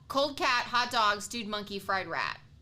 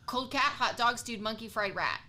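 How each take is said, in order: First: The phrase is said at a slower pace. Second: The phrase is said at a fast pace.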